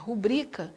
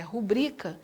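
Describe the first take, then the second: First: The stress falls on a later syllable. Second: The same.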